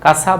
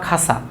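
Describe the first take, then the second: First: The first k is plain, without aspiration. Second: The first k is aspirated, like kh.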